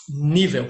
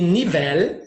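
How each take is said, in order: First: Portuguese Nível, stressed NÍ, final l like w; Nível said the Portuguese way, NÍ-veu; stress on first syllable. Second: Spanish nivel, stressed ni-VEL with clear l; stress on last syllable. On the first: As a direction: hit the NÍ of Nível, let the end fall. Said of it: "perdão, em português". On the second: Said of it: "em espanhol". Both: Shown as a demonstration.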